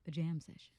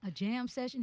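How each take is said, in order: First: Said in the usual way. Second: Jam session? asked much higher, rising in disbelief; incredulous echo. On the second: Retold or imitated. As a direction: repeat it back as if you misheard.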